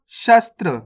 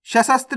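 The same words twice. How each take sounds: First: शस्त्र as "shas-tra", s-t-r joined; correct conjunct reading. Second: सशस्त्र broken up as "sha-sas-tri"; wrong reading. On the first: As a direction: run str together in शस्त्र. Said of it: "सशस्त्र नहीं पढ़ना". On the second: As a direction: add an extra syllable in सशस्त्र: sha-sas-tr. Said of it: "नहीं पढ़ना". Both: Shown as a demonstration.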